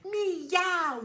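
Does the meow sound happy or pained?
happy. The meow sounds happy and cheerful.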